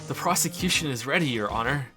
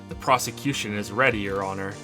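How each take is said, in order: First: It is said in an amused voice. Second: It is said in a plain, ordinary voice.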